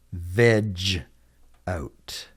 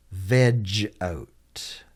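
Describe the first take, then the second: First: Spaced-out "Veg out", dropping away on "out"; slow model repeat. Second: Said in the usual way. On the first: Shown as a demonstration. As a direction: split "Veg out" into two separate words. Teacher repeats phrase slowly for learners.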